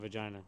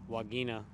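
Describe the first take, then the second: First: The word begins with a V sound. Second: The word begins with a W sound. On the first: This is the English pronunciation. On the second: This is the Latin pronunciation.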